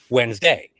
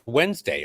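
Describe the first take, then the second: First: The stress falls on a later syllable. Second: The stress falls on the first syllable. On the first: The speaker calls it wrong. "people were saying in the chants" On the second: The speaker calls it right. "it's pronounced Wednesday"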